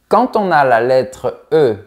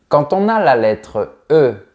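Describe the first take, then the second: No difference in how they are said.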